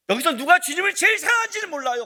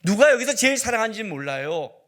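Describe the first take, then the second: First: Louder, higher, with a strong fall on 제일; 제일 punched high, then falling away; emphatic restatement. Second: Said in the usual way. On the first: Real, not acted. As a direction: lean hard on 제일 and drop the pitch after it.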